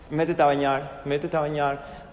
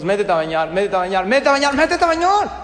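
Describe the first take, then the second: First: Low, even broken-record repeat; same tone. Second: Escalating nagging. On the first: Shown as a demonstration. Parent repeats bath order like a broken record, same tone. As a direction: repeat it calmly, pitch held down. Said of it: "repite lo mismo en el mismo tono". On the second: Acted. Parent losing it over bath time, escalating to a yell. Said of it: "lo que pasa es que cuando decimos".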